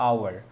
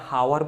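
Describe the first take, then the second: First: The word begins directly with a vowel sound. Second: The word begins with an audible h sound. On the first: "এটাকে বলি যে আওয়ার" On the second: "এটাকে কেউ আমরা হাওয়ার বলি"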